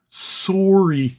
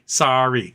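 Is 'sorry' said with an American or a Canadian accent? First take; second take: Canadian; American. First: The word has a Canadian-accented vowel. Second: The word has an American-accented vowel. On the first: "And Canada, it's very sorry" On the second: "in America, we say"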